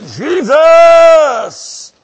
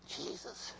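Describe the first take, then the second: First: High, drawn-out full shout; crying out. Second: Tiny, barely audible whisper. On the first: Preacher showing how Bartimaeus called Jesus, loud cry. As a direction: holler the name at full force. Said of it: "No, he cried out". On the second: Preacher showing how Bartimaeus didn't call Jesus, whispered. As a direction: whisper it very softly. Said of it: "he didn't whisper. He didn't say". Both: Shown as a demonstration.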